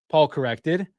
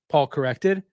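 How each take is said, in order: Both takes have the same delivery.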